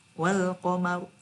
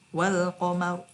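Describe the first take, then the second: Both takes have the same delivery.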